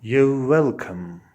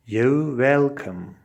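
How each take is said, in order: Both takes have the same delivery.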